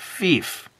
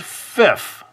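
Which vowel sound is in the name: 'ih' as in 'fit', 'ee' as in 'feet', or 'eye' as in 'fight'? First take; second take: ee; ih. First: The vowel is a long 'ee' as in 'feet'. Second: The vowel is a short 'ih' as in 'fit'. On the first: The speaker calls it right. "no, it's pronounced Fief" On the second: The speaker calls it wrong. "some people might pronounce that as Fif"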